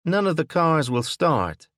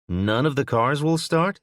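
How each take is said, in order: First: Falling tune, NONE stressed, louder and higher; flat statement. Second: "start" rising in disbelief, louder and higher; incredulous question. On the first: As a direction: state "None of the cars will start" firmly, dropping at the end. Woman tells Will the news. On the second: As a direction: ask "None of the cars will start?" rising on "start". Will asked. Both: A narrator's reading.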